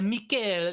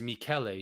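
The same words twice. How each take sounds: First: The name is said with an exaggerated accent. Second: The name is said plainly, without flourish. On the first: This is a showy style the teacher did not use. "like she wasn't like throwing that thing on there" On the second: This is how the teacher actually said it. "it was it was Michele"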